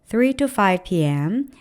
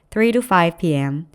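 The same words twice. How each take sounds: First: The pitch rises at the end of the phrase. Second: The pitch falls at the end of the phrase. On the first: The speaker calls it wrong. "이렇게 문장 중간중간을 올려놓는 습성이 있으세요" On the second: The speaker calls it right. "일부러라도 끝을 좀 내려서 발음해 주세요"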